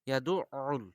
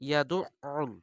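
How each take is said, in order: The two takes are said the same way.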